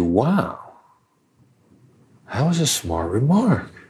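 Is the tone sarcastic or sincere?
sincere. It is said sincerely, as a compliment.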